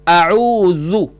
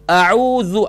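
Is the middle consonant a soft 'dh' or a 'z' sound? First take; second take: dh; dh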